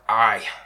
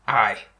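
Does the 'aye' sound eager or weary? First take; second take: weary; weary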